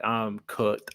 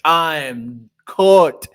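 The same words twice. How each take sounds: First: Said in the usual way. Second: "I am cooked" stretched out slowly, louder on the repeat; slow, emphatic "cooked" for comic doom; mock doomed emphasis. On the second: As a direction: drag out "I am cooked" in loud mock despair. Imagining himself facing Titans after training.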